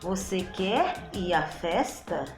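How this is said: It ends rising, like a question.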